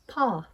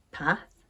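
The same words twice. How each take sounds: First: "path" as "pahth", long vowel; southern long A. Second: "Path" with short a as in cat; Northern short A. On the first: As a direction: say "path" the RP way, ah as in father. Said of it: "In the south of England". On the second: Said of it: "I pronounce these words with an A sound". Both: Shown as a demonstration.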